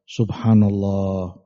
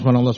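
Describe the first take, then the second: First: The phrase is recited slowly and calmly. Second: The phrase is rattled off very quickly. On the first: The speaker calls it right. "Tumaknina, tenang bacanya" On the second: The speaker calls it wrong. "dengan cepat sekali, ekspres"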